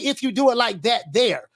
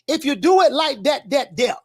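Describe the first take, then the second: First: It is said in a plain, standard accent. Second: It is said in a Florida accent. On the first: The speaker calls it wrong. "You can't say it like that" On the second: The speaker calls it right. "You got to say it the way we say it in Florida"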